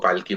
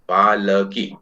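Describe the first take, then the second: First: The L is said without a following vowel. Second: The L carries a full vowel after it. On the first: It follows everyday speech. "उच्चारण में हम इसको पालकी बोलते हैं। ल हमेशा आधा ही बोला जाता है" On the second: It follows the written spelling. "ये उसका सही शब्द है, लेखन के समान से, वर्तनी के हिसाब से"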